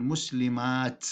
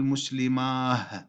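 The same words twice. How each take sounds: First: "مسلمات" ending in a clear t; final ta. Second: "مسلماه" ending in breathed h; final ha. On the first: Teacher showing the purer form, "مسلمات" with final t. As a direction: stop on "مسلمات" with t after long aa. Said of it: "نلفظها بالتاء". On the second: Teacher showing what we don't say, "مسلماه" with final h. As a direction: swap the t for h in "مسلماه". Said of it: "ما نقول مسلماه بالهاء". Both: Shown as a demonstration.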